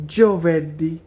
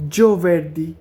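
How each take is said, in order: Both takes have the same delivery.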